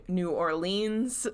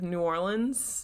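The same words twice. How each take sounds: First: "New Orleans" as new or-LEENZ; childhood pronunciation. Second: "New Orleans" as new OR-linz; local pronunciation. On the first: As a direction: say "Orleans" with a long "leens" ending. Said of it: "the way I grew up saying it". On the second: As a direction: say "Orleans" with a short, unstressed "linz" ending. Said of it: "instead of New Orleans". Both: Shown as a demonstration.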